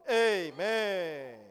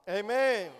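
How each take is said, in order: First: Loud Amen stretched long and slow, falling at the end; drawn-out loud amen. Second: Loud, clipped Amen called out together; short loud amen. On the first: (缓慢拉长、响亮地喊"嗯，Amen"，尾音下落) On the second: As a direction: call out a short, firm Amen. (短促响亮地喊"Amen"，尾音下落) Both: Real, not acted. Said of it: "你们操练得太好了".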